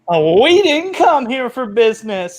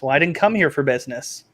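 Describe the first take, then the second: First: It is said in a silly, unthreatening tone. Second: It is said in a serious, intimidating tone.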